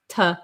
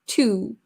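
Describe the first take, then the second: First: The word has a short, relaxed uh vowel. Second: The word has a full, tense oo vowel. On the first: "the easiest vowel sound to say is uh" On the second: "we need a lot of muscle here"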